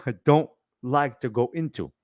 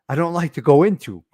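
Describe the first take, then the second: First: Laughing it off. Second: Said in the usual way. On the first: Real, not acted.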